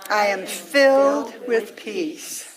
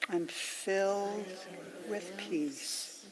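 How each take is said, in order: First: It is said at the loudest level of all. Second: It is said more quietly again, fairly soft. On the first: "let it get softer and softer" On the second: "let it get softer and softer"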